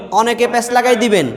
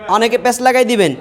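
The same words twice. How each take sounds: The two takes are said the same way.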